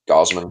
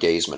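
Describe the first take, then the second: First: The first syllable rhymes with 'gauze'. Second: The first syllable rhymes with 'gaze'. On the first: The speaker calls it right. "It's Gosman" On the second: The speaker calls it wrong. "it's not Gazeman"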